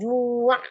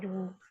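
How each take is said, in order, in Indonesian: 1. Suku katanya berakhir dengan lepasan tambahan. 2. Suku katanya berakhir bersih tanpa lepasan tambahan. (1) "jangan juak gitu, jangan ada gerakan menarik dari bibir" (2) "Biasa ju, ju, ju, biasa aja"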